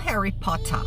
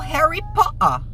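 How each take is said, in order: First: The t in Potter is pronounced. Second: The t in Potter is dropped. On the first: "não" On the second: "falando ... porque eles vão meio que comer o T"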